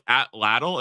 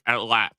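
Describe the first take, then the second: First: The word ends with an audible L sound. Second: The word ends without any L sound. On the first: The speaker calls it wrong. "it's not like Atlatl" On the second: The speaker calls it right. "it's like Atlat"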